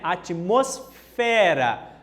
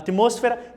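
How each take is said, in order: First: The stress falls on the syllable fe. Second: The stress falls on the syllable mos. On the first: "A gente fala em língua portuguesa, né? Atmosfera. A tônica está nessa sílaba fe" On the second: "Ó em espanhol, atmos, mos, tá? Olha a pronúncia"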